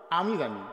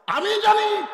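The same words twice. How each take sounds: First: Said in the usual way. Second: Very high, loud cry; emphatic shout. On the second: Real, not acted. Preacher insisting he knows the history, emphatic shout. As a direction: belt out the claim to the crowd.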